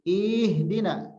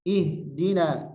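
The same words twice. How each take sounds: First: Ihdina with the first ih stretched too long; wrong drawn-out ih. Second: Ihdina with a short, crisp opening ih; correct short ih. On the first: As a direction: drag out the opening ih of ihdina as a mistake. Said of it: "hamzahnya jangan jadi panjang". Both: Shown as a demonstration.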